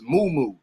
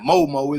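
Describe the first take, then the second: First: The vowels sound like 'oo'. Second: The vowels sound like 'oh'. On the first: The speaker calls it right. "It's a moo moo dress" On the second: The speaker calls it wrong. "Am I saying it right?"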